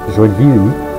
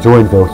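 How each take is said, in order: First: The name is said with a Portuguese pronunciation. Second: The name is said with an English pronunciation. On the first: "named after the Brazilian city of uh, that's pronounced Joinville" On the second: "I'm pronouncing it Joinville here"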